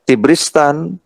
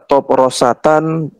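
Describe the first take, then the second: First: Three syllables, starting with an i vowel. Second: Four syllables, starting with an o vowel. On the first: "ini bisa dibaca Tibristan" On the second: "bisa dibaca Toprosatan"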